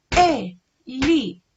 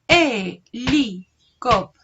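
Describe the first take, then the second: First: Helicóptero said loud, each syllable marked; teacher counting the syllables of Helicóptero. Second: Helicóptero drawn out slowly and loud, the first syllable E stretched; teacher slowing down Helicóptero to show its first syllable; slow sounding out. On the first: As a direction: tap out Helicóptero on the fingers. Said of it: "La vamos a hacer también con dedos". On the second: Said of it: "Cuál es la sílaba inicial de la palabra helicóptero". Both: Shown as a demonstration.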